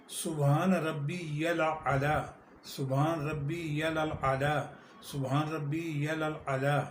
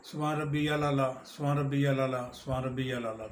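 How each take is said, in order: First: Slow, measured سبحان ربی الاعلی with every syllable clear; careful recitation. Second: Quick repeated phrase with the words run together; rushed سبحان ربی الاعلیٰ; hurried recitation. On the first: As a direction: say سبحان ربی الاعلی deliberately, drawing out the vowels. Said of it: "عربی صحیح مفہوم میں پڑھیں گے". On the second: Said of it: "سجدے میں تین دفعہ پڑھتے ہیں". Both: Shown as a demonstration.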